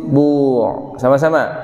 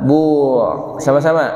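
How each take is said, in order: The two takes are said the same way.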